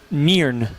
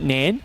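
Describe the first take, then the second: First: The name is said in a Scottish accent. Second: The name is said in an Australian accent. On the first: "But in Scottish, it's actually" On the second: "If you're saying it with an Australian accent"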